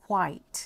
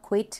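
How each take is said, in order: First: "quite" with a long gliding eye vowel; correct "quite" vowel. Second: "quit" with a short i, like kwit; short-vowel "quit". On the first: Teacher warns learners off "quit", modelling "quite" like kwite. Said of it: "อย่าอ่านว่า quit นะ". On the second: Teacher contrasts it with quite, saying "quit" with short i. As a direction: say "quit" to rhyme with sit. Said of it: "อันนี้อ่านว่า quit". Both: Shown as a demonstration.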